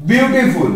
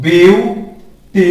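First: Said in the usual way. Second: বিউটিফুল stretched very slowly, বি-উ-টি-ফুল beat by beat; syllables pulled apart. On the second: Shown as a demonstration. Teacher to class, counting syllables, very slow and spelled out. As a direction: draw out বিউটিফুল syllable by syllable so they can count. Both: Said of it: "কয়বার বললাম?".

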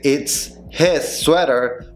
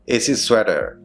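First: Very slow "It's... HIS sweater"; full H. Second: "It's his" as "itsis", no H; stuck together. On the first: Teacher showing what to avoid, slow separated pronunciation. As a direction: separate the words and sound the H in "his". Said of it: "en vez de decir". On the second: Teacher showing the reduction, linked pronunciation. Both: Shown as a demonstration.

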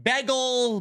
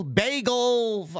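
First: "bagel" with a short e, like BEG-el; regional mispronunciation. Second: "bagel" with a long a, BAY-gel; standard pronunciation. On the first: Retold or imitated. Host quoting people around him, "bagel" as BEG-el. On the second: Shown as a demonstration. Host contrasting accents around him, "bagel" as BAY-gel. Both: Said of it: "You got people around me saying".

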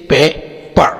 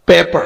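First: "paper" in two parts, पे, पर, with a gap; split into syllables. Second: Said in the usual way. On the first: Shown as a demonstration. ("Paper" کو دو حصوں میں ٹھہر کر) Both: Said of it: "दो syllable है".

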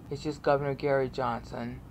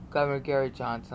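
First: Said in the usual way. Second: Governor Gary Johnson slurred fast into one word; run together. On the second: Shown as a demonstration. Showing viewers the channel name, run together fast. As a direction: rush the three words as a single name. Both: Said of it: "all run together".

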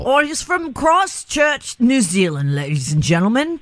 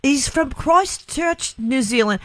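First: Put-on New Zealand accent. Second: Slow, high put-on Liverpool accent. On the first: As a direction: try your best New Zealand accent. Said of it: "With your best New Zealand accent possible". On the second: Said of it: "that was a Beatles Liverpool accent".

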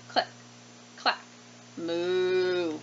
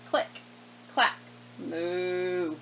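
The two takes are said the same way.

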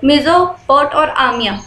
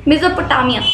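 First: मेसोपोट और आमिया, slow, with a break between the parts; syllable by syllable, slowly; split into syllables. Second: Said in the usual way. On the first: Shown as a demonstration. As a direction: say Mesopotamia as two separate chunks, मेसोपोट then आमिया. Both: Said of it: "तो आप ना उसको divide करते हो".

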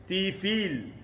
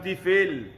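First: Tifil with a bright, spread-lip ee, "tifeel"; clear i vowel. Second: Tifil said with a slack e, "tifel"; Malay-accented vowel. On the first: Teacher models correct vowel, Tifil as "tifeel". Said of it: "Renyih sikit". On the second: Teacher shows local mistake, tifil as "tifel". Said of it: "lahjah Melayu kita". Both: Shown as a demonstration.

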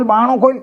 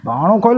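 First: Much higher, pleading call; urgent shout. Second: High urgent call to open door. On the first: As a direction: yell it again, more desperate. Repeated more urgently. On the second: Teaser clip, banging door. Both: Acted.

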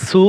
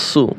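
First: সু with a thin s; light sin. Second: সু with an emphatic s; heavy sad. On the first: Teacher drilling look-alike sounds, light-s সু. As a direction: say সু with a light, forward s. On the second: Teacher drilling look-alike sounds, heavy-s সু. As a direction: say সু with a thick, full-mouthed s. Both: Shown as a demonstration. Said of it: "একটি হরফ অন্য হরফের সাথে মোসাব্বা লাগে".

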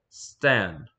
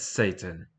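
First: Stan as one syllable, short a; Satan mispronounced Stan. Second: Said in the usual way. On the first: Acted. Interviewer insisting on the wrong name, Stan in one syllable. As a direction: squash the name into Stan, with no long ay. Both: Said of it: "I'm not hearing any difference".

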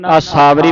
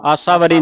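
First: ਆਸਾਵਰੀ with long "aa-saa" opening; long vowels. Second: ਆਸਾਵਰੀ quick, as "assavari"; wrong short vowels. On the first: Teacher gives the correct reading, ਆਸਾਵਰੀ as "aa-saavari". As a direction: lengthen the aa sounds of ਆਸਾਵਰੀ. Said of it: "ਪਾਠ ਪੜ੍ਹਨਾ ਹੈ". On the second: Teacher repeats what not to read, ਆਸਾਵਰੀ as short "assavari". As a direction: squash the start of ਆਸਾਵਰੀ into "assa". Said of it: "ਆਸਾਵਰੀ ਨਹੀਂ ਪੜ੍ਹਨਾ". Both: Shown as a demonstration.

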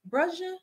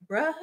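First: "Brusha" with a sh sound in the middle, higher and questioning; alternative pronunciation guess. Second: "Bruh" as broo-ha, with a questioning rise; unsure pronunciation guess. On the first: Streamer asking viewers how a name goes, "Brusha" with sh. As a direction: softly try "Brusha" as broo-sha, lifting the pitch. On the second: Streamer asking viewers how a name goes, "Bruh" said broo-ha. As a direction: try "Bruh" as two syllables, broo-HA, tentatively. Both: Shown as a demonstration. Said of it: "Y'all gotta tell me how it goes".

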